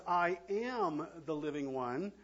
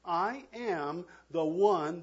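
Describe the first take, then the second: First: "am" stretched and rising, present tense; stress on am. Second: "I am the one" drawn out slowly; slow stress on one. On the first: Preacher stressing "am" to the church as present tense. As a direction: lean on "am", not was or will be. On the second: Preacher slowly repeating the claim to the church. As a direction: linger on "one" to seal it. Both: Shown as a demonstration. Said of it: "present tense".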